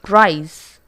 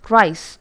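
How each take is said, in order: First: The word ends with a buzzing Z sound. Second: The word ends with a hissing S sound. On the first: The speaker calls it right. "The correct form is rise" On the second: The speaker calls it wrong. "the incorrect form is rice"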